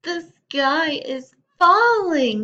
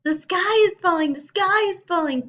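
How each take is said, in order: First: High, loud, slow panicky cry; panicked chick. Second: High, loud frantic shriek; panicked scream. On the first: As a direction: wail it like a frightened chick. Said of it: "he thought". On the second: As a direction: shriek it while running in terror. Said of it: "Chicken Little screamed as he ran". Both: Acted.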